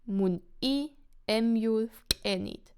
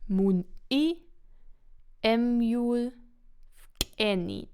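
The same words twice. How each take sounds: First: The sentence is said at normal speed. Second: The sentence is said a bit more slowly.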